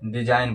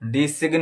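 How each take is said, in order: First: No g is heard before the n. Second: A hard g is heard before the n. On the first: The speaker calls it right. "डिजाइन पढ़ा जाएगा" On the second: The speaker calls it wrong. "डिसिग्न नहीं पढ़ा जाएगा, डिसिग्न जो है वो गलत हो जाएगा"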